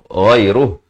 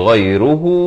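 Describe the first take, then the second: First: The word stops on a short final h. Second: The word ends in a drawn-out long u. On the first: The reciter pauses after this word. "Itu kalau kita waqaf" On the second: The reciter continues into the next words. "Hu itu dipanjangkan empat atau lima harakat"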